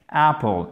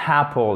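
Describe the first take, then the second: First: "Apple" with no h, open a; "Apple" said right, no breath before it; correct apple. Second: "apple" said with a wrong h before it, like "happle"; aspirated h. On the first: Teacher giving French learners the right "Apple": no h at the start. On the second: Teacher warning French learners against "happle": h before apple. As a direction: add a breathy h to "apple" as the mistake. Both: Shown as a demonstration. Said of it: "ne faites pas apple".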